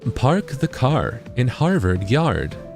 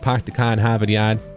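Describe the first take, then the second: First: It is said in a neutral accent. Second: It is said in an East Coast accent.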